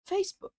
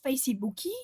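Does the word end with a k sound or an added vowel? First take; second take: k sound; added vowel. First: The word ends cleanly on the k sound. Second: An extra vowel sound follows the final k. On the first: The speaker calls it right. "it's Facebook" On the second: The speaker calls it wrong. "It's not Facebooky"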